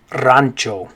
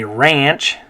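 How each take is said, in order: First: Rancho as RAHN-cho; Spanish pronunciation. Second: Said in the usual way. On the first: Shown as a demonstration. Teacher contrasts it with ranch, rancho said RAHN-cho. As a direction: say rancho with an ah in the first syllable. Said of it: "in Spanish you're gonna say". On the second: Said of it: "in English we'd say".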